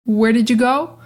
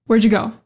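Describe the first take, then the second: First: "did" sounded in full, "Where didju go"; every word present, rising at the end; fuller version. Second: "Where'd you" blended into "wherja"; short and quick, no separate did; reduced version. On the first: Just like the last one, fuller version. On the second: Just like the last one, reduced version. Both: Shown as a demonstration. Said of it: "a couple different versions".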